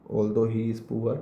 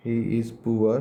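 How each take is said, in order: First: Although he is poor drawn out word by word, slow; slow dictation. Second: Said in the usual way. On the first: Shown as a demonstration. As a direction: spell it out slowly for the class to copy. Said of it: "repeated slowly for dictation". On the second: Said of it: "dictating example".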